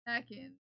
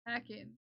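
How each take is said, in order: No difference in how they are said.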